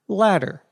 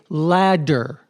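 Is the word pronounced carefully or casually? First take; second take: casually; carefully. First: The middle consonant is pronounced in a relaxed way. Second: The middle consonant is pronounced with exaggerated care. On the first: "in normal conversation, these two words are pronounced the same" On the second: "overpronounce the words"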